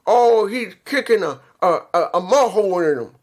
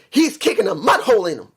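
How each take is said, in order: First: It is halting, repeating a before mud hole. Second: It is said smoothly without stumbling or pauses.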